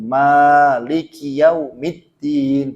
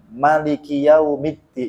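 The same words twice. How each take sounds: First: The first vowel of Maliki is long. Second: The first vowel of Maliki is short. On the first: This is the usual reading tradition. "kalau Asim biasa" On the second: This is one accepted reading tradition. "itu Imam Hamzah"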